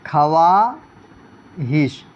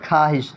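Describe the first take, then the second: First: خواہش very slowly as kha-waaa, pause, hish; slow spelling pronunciation. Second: خواہش said khaa-hish, two syllables, no w; silent waw. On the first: Teacher spells out what is written, slow sounded waw. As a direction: split خواہش syllable by syllable, sounding the w. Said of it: "جیسے لکھے ہیں کیا؟". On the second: Teacher gives the read form to students, silent waw. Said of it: "پڑھا جائے". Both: Shown as a demonstration.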